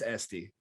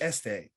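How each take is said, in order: First: The name ends with a high 'ee' vowel. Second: The name ends with an open 'eh' vowel. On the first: This is the name's official pronunciation. The speaker calls it right. "but no, it's Esty" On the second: This is how it would be read in Spanish. The speaker calls it wrong. "in Spanish it's este"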